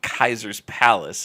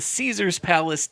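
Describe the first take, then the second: First: The first word begins with a K sound. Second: The first word begins with an S sound. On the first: The speaker calls it right. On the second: The speaker calls it wrong.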